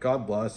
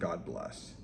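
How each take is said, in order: First: It sounds quick and casual, like a throwaway goodbye. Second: It sounds heartfelt and sincere, like a real blessing.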